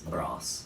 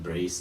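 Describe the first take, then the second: First: The vowel is a short 'a' sound. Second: The vowel is a long 'ay' sound. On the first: The speaker calls it right. "it's brass" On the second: The speaker calls it wrong. "I pronounced wrong in the previous video, so not brace"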